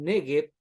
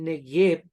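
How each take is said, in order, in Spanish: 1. El acento cae en la primera sílaba. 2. El acento cae en la última sílaba.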